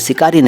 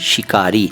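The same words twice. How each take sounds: First: The word begins with a plain s sound. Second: The word begins with an sh sound. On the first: The speaker calls it wrong. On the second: The speaker calls it right.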